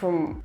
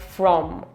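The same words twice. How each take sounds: First: The vowel is reduced to a weak schwa. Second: The vowel is a full, strong vowel. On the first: The speaker calls it right. "A lot of schwas here" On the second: The speaker calls it wrong. "and not"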